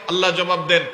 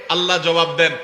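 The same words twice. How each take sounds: The two takes are said the same way.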